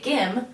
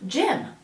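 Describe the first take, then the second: First: The word begins with a hard G sound. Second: The word begins with a soft J sound. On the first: The speaker calls it wrong. "We don't say gim" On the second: The speaker calls it right. "this word we read as j, j, gym"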